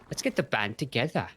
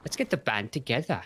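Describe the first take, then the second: First: It is said in an attempted British accent. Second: The same.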